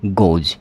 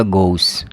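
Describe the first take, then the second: First: गोज ending in a buzzed j; voiced j ending. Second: गोस ending in a plain s; hissed s ending. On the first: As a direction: close गोज on j rather than s. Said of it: "आप pronunciation इसका क्या करोगे?". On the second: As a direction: close गोस on an unvoiced s, not j. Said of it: "अगर आपने से एस लिख दिया". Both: Shown as a demonstration.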